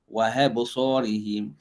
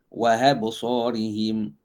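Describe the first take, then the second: No difference in how they are said.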